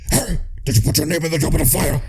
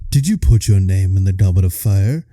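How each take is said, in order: First: The question is asked in an angry voice. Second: The question is asked in a calm voice.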